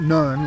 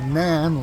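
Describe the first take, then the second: First: The vowel sounds like the one in 'none'. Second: The vowel sounds like the one in 'nan'. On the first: "it's not Nun like N O N E" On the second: "it's not Nan like N A N"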